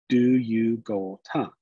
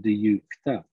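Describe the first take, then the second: First: Every syllable is pronounced, including the go. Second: The go syllable is dropped, shortening the word. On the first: The speaker calls it wrong. "when you spell it out, it's do you go tongue. Nobody says it that way" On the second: The speaker calls it right. "They shorten it to do you tongue"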